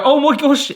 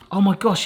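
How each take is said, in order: First: Oh my gosh lifted higher and louder; real thrilled exclaim; excited. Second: Said in the usual way. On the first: Real, not acted. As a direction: burst out with it. Brownie finally comes out.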